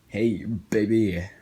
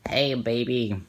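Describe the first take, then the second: First: It is said in a smooth, seductive voice. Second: It is said in an awkward, unsexy voice. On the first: "he didn't sound that sexy" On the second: "That's that's what he sounded like"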